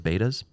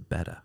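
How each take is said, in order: First: The first vowel sounds like 'bay'. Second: The first vowel sounds like 'bet'. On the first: The speaker calls it wrong. "they're known as betas. It's not how you say it" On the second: The speaker calls it right. "It's a betta"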